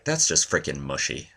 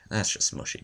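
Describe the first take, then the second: First: Said in the usual way. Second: Whispered aside. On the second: Shown as a demonstration.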